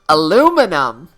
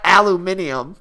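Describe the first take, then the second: First: The word is said with four syllables. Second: The word is said with five syllables. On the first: The speaker calls it right. "Aluminum, not aluminium" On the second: The speaker calls it wrong. "It sounds like a robot from the future"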